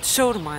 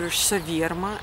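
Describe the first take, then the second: First: It is said the way people in Volgograd say it. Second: It is said the way people in St. Petersburg say it. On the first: The speaker is from Volgograd. "We call it shawarma in Volgograd" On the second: The speaker is from St. Petersburg. "this means that this person is from St. Petersburg"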